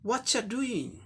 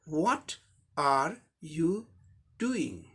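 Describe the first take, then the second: First: The first words blend into a reduced form. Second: Every word is said fully and separately. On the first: It is highly informal speech. "ये highly informal context में बोला जाता है" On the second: It is formal speech. "फॉर्मल context में"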